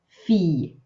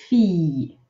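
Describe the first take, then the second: The two takes are said the same way.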